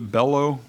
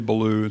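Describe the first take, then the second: First: The name ends with an 'oh' sound. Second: The name ends with an 'oo' sound. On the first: "I would have pronounced it Bellow" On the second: "the History Channel guys say Ballou"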